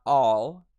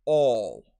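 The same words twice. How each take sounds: First: Said in the usual way. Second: ALL with elongated, rounded back 'aw'; loud British 'awl' for ALL; British vowel. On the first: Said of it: "not all". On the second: Shown as a demonstration. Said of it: "it's all".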